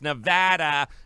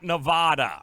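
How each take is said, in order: First: The middle syllable sounds like 'add'. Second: The middle syllable does not sound like 'add'. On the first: The speaker calls it right. "It's Nevada" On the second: The speaker calls it wrong. "not Nevada, all right? It's an East Coast thing"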